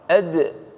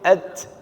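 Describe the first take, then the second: First: The final d is released with a light bounce. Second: The final consonant is clipped with no bounce. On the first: The speaker calls it right. "dalnya qalqalah. Ad, ad gitu" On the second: The speaker calls it wrong. "Enggak boleh at"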